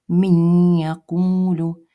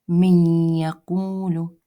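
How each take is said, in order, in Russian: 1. Произносится с назализацией. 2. Произносится с назализацией.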